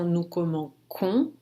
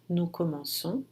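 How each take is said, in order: First: The consonant is a hard K sound. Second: The consonant is a soft S sound. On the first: The speaker calls it wrong. "Para não ter o som no comum com" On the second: The speaker calls it right. "Para manter esse som S"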